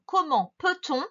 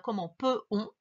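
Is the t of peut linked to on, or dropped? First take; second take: linked; dropped. First: A t sound links peut to on. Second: No t sound links peut to on. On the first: The speaker calls it right. "il faut bien faire la liaison du coup entre peut et on" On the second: The speaker calls it wrong. "c'est pas"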